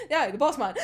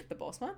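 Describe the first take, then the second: First: "boss man" firmly stated with a falling end; confirming answer. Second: "boss man" quiet with a rising end; questioning echo. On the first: Podcaster answering their own query about the boss, confirming. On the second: Podcaster querying a character's name for the boss, questioning. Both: Retold or imitated.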